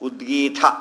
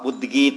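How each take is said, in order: First: The final t sound is aspirated, said with force. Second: The final t sound is plain, without aspiration. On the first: "ಇನ್ನೂ ಒತ್ತು ಕೊಟ್ಟು ಹೇಳಿದರು" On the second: "ಉದ್ಗೀತ ಬೇರೆ"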